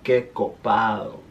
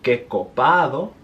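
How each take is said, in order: First: The D sound is slurred and soft. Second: The D sound is clearly pronounced.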